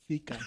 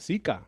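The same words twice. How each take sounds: First: The word begins with a lisped th sound. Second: The word begins with a plain s sound. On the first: This is the way it is said in Spain. "In Spain, it's really Zika" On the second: This is the Puerto Rican way. "Boricua está Zika"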